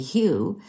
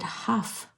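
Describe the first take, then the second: First: The name ends in a vowel, no f. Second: The name ends in an f sound. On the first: This is how most people read the name. "if you were anybody were to read that, you'd say Hugh" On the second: This is how the man himself says his name. "but he pronounces it Huff"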